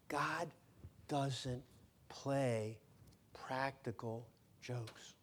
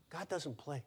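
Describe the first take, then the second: First: "God" "doesn't" "play" split by pauses, then "practical jokes" slow; slow word-by-word stress. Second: Said in the usual way. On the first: Shown as a demonstration.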